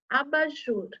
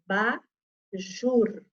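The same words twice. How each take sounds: First: Said in the usual way. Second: "Abajur" slowly split as a-ba-jur; teacher sounding out "Abajur", pausing after each syllable. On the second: Shown as a demonstration. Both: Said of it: "Quem é que tá no final da sílaba".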